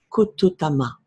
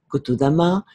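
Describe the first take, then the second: First: The third syllable starts with a T sound. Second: The third syllable starts with a D sound. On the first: This is the pure sound of the practice. The speaker calls it right. "se traduit en son pur" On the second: The speaker lacks the practice's fundamentals. The speaker calls it wrong. "Le son D ne faisant pas partie des huit rythmes pairs du Kotodama"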